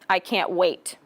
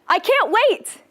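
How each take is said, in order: First: It sounds flat and unenthusiastic. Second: It sounds excited and enthusiastic.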